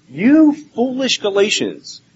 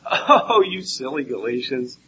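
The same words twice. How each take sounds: First: Slow, high, scolding half-yell; mock yelling. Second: Mild teasing. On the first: Preacher voicing Paul yelling at the Galatians, angry. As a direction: stretch it out like an exasperated scolding. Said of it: "he's kinda yelling at them". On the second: Retold or imitated. Preacher mimicking others' gentle reading of Paul, mildly teasing. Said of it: "make it seem like Paul is saying".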